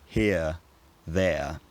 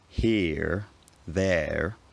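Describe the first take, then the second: First: Each word ends in a centering vowel glide. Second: Each word ends with an r consonant. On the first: This is the later pronunciation after r weakened. "were now pronounced something like" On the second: This is the older pronunciation before r weakened. "no longer pronounced like a r"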